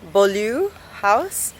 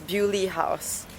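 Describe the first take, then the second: First: The name is said with a French pronunciation. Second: The name is said with an English pronunciation. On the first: "in French, pardon my French, it's pronounced as" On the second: "in England it's pronounced as"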